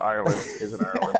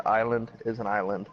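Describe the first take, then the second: First: IRELAND with an R, as IRE-lund. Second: ISLAND said with no R, as EYE-lund; island without R. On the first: Telling King the other thing he may have said, Ireland with R. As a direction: sound the R in Ireland. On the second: Telling King what his accent sounded like, island without R. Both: Shown as a demonstration. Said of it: "It literally sounded like you said".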